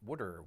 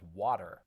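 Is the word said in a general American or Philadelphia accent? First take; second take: Philadelphia; general American. First: It is said in a Philadelphia accent. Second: It is said in a general American accent.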